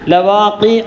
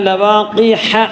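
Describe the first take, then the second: First: The last syllable begins with a glottal catch. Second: The last syllable begins with a breathy h sound. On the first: The speaker calls it wrong. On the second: The speaker calls it right.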